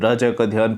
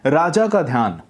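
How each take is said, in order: First: Words are muffled, spoken with the mouth barely open. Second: Words are clear, spoken with the mouth wide open. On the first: The speaker calls it wrong. "इतना सा मुंह खोल खोल के बोल रहे हैं आप" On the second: The speaker calls it right. "मुंह ज्यादा खोलना है"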